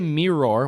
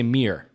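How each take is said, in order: First: It is said as two full, separate syllables. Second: It is said almost like one syllable, meer. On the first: The speaker calls it wrong. "We don't say mirror" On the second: The speaker calls it right. "we say mirror. It's almost like we say M E E R"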